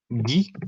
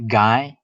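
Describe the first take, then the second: First: The name is said with a French accent. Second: The name is said with an English accent. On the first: "the French name Guy" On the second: "A British person could say Guy"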